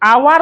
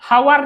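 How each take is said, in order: First: The word begins with a vowel sound. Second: The word begins with an h sound. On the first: The speaker calls it right. "एच टा तो silent अछि" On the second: The speaker calls it wrong. "हावर नहीं कहन"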